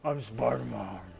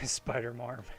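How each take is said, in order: First: It is said in a gravelly Batman voice. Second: It is said in a plain voice.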